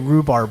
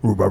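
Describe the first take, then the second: First: The word is said in full. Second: The word is said quickly and clipped. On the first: "I don't actually say rhubarb" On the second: "I just go rhubarb"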